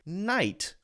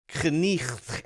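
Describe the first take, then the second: First: The k and the gh are silent. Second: The k and a throaty gh sound are pronounced. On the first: This is how the word is said today. "We say night" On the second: This is how the word was said centuries ago. "We don't say knicht anymore"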